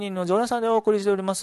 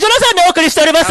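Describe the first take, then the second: First: It is said in a calm, lower-energy voice. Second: It is said in a louder, raised-energy voice. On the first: "これは絶対な、違う" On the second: "上げたけどね"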